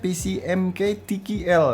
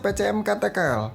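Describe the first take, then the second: First: The letters are named in English. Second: The letters are named in Indonesian. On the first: "harusnya yang bener ngomongnya" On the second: "kalau bahasa Indonesia"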